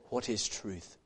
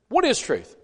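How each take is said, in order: First: It is asked in a slow, earnest, pious tone. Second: It is asked in a curt, exasperated tone. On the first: It is a sincere question seeking an answer. The speaker calls it wrong. "I don't think that was an honest" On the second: The asker is fed up and not waiting for an answer. The speaker calls it right. "I think he's frustrated"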